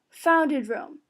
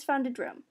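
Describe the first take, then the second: First: Founded stretched slowly and stressed. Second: Said in the usual way. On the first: Shown as a demonstration. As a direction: lean hard on founded, slowly. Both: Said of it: "as in established it".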